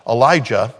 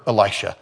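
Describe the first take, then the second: First: Elijah said as el-EYE-jah, louder as the fix; corrected name. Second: Elisha said as el-EYE-sha, the slip; wrong name. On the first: Preacher correcting himself to Elijah, a touch louder. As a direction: correct yourself firmly to Elijah. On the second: Preacher slipping on the prophet's name, saying Elisha. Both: Real, not acted.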